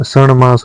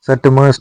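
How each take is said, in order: First: सणमास with retroflex n before m; correct retroflex n. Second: सटमास with retroflex t before m; wrong t. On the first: Teacher giving learners the correction, सणमास with nasal n. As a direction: say सणमास as san-maas. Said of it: "सटमास नहीं होता". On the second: Teacher showing learners the mistake, सटमास with t. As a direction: say सटमास as sat-maas. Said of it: "सणमास होता है". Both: Shown as a demonstration.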